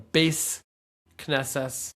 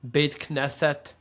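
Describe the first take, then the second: First: The words end with an s sound. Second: The words end with a t sound.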